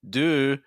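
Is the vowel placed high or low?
high. The vowel has a higher placement. "a higher placement there"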